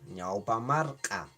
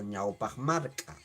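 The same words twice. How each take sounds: First: "ñaupa marca" slowly, no consonant closing ñaupa; slow "ñaupa marca", ñaupa ending on an open vowel; first variant. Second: "ñaupa marca" with a throaty h closing ñaupa; second variant. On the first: Teacher giving pupils the word for forearm, first variant. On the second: Teacher giving pupils the word for forearm, second variant. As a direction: end ñaupa on a back-of-throat fricative before marca. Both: Shown as a demonstration. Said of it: "o ñaupa marca".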